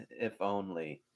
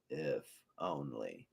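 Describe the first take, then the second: First: Softer bitter mutter after a laugh; a dry, quiet aside. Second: Much softer, slow near-whisper; whispered echo. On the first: Hades grumbling to himself after laughing, quieter. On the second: Hades repeating his wish to himself, near whisper. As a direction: trail off into a bitter murmur. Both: Retold or imitated. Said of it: "so hilarious and so quotable".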